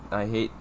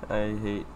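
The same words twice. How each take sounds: The two takes are said the same way.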